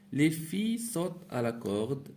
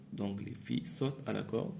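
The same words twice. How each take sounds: First: Reading aloud. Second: Said in the usual way. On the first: Shown as a demonstration. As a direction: read out to the class, a bit raised. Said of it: "teacher reads the exercise sentence". (lecture claire à voix haute) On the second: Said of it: "teacher repeats it softly".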